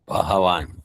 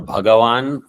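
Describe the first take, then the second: First: The middle consonant is an h sound. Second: The middle consonant is a g sound. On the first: "many people pronounce instead of Bhagavan, what do they say? ... Ha" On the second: "The Ga"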